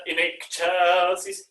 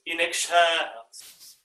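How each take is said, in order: First: "excelsis" slow, accent undisplaced; first accent placement. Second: "excelsis" with a long middle syllable, falling; displaced accent. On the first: Conductor recalling the difference for choir, "excelsis" evenly placed. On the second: Conductor recalling the difference for choir, "excelsis" stressed mid-word. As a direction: lean late into "excelsis". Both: Shown as a demonstration. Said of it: "the difference between the".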